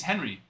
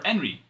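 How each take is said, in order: First: "Henry" with a clear H sound at the start; English Henry. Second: "Henry" with a silent H, said "Enry"; Spanish Henry. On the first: Player introducing himself, "Henry" said with the H sounded. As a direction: say "Henry" the American way, H pronounced. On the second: Host correcting the name, "Henry" said with no H. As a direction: drop the H in "Henry", Spanish style. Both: Retold or imitated. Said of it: "you don't pronounce the H".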